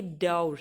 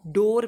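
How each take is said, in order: First: डोर said as 'daur', with au; 'au' pronunciation. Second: डोर with a plain long o, as 'dor'; डोर with o instead of au; normal 'o' pronunciation. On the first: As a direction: draw डोर out with an au glide. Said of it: "but ये डोर है". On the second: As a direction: say डोर the everyday way, dor. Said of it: "अगर इसको आप normally pronounce करोगे". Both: Shown as a demonstration.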